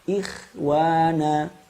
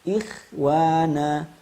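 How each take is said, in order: Both takes have the same delivery.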